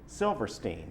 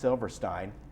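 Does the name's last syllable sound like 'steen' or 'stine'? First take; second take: steen; stine. First: The last syllable rhymes with 'seen'. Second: The last syllable rhymes with 'wine'. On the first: The speaker calls it wrong. "he pronounced it [name]" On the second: The speaker calls it right. "should have been pronounced Silverstein"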